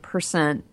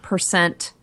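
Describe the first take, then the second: First: The ending of the word is dropped off. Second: The ending of the word is clearly pronounced. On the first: The speaker calls it wrong. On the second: The speaker calls it right.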